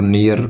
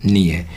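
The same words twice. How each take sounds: First: "नियर" with the final r sounded; Indian-style "नियर", r clearly said; common mispronunciation. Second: "नियर" said as "ni-e", no r; r-less "नियर"; correct pronunciation. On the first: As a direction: pronounce the r at the end of "नियर". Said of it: "pronounce नहीं किया जाता". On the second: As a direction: drop the final r in "नियर". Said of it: "नियर pronounce नहीं किया जाता". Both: Shown as a demonstration.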